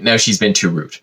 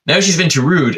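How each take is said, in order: First: Said in the usual way. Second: "Now she's been too rude" with a harder push on "Now"; an indignant waiter restating his point; emphatic repeat. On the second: Shown as a demonstration.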